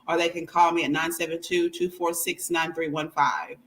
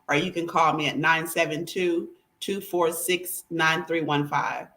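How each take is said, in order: First: It is said at a normal, quicker pace. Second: It is said slowly and deliberately.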